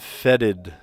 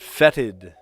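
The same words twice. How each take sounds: First: The middle consonant is softened to a D sound. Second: The middle consonant is a clear T sound.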